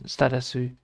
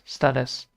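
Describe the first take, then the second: First: The final vowel 'u' is clearly voiced aloud. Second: The final vowel is dropped and not voiced. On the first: The speaker calls it wrong. "and not statusu, because you don't speak it out" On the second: The speaker calls it right. "you need to not speak out the I"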